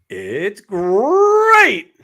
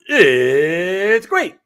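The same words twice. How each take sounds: First: The word great is stretched out. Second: The word it's is stretched out.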